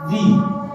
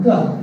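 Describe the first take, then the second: First: The vowel is full and long. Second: The vowel is short and reduced. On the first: "This is strong form" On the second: "This is this is weak form"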